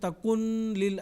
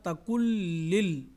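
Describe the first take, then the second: First: The n is sounded before the l. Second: The n fully merges into the l. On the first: The speaker calls it wrong. "ऐसा नहीं पढ़ेंगे" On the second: The speaker calls it right. "नून की आवाज़ मुकम्मल लाम में मिल जाएगी"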